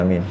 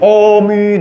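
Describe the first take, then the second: First: It is said softly and quietly. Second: It is said loudly and forcefully.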